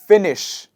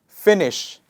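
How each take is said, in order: First: The word ends with an sh sound. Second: The word ends with an sh sound.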